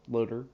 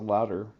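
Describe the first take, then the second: First: The first vowel sounds like 'low'. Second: The first vowel sounds like 'loud'. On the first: The speaker calls it right. "I found out how to pronounce his name right this time" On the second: The speaker calls it wrong. "I always pronounce it louder"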